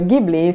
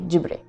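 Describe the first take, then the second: First: It is said with the Italian pronunciation. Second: It is said with the Japanese pronunciation. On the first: "I'm used to the Italian pronunciation" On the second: "in Japanese you're supposed to say Ghibli"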